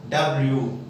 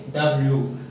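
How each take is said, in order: Both takes have the same delivery.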